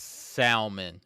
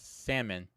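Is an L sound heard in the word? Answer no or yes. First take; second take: yes; no. First: The word is said with a clear L sound. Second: The word is said with no L sound. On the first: "actually pronouncing the L" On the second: "I say salmon"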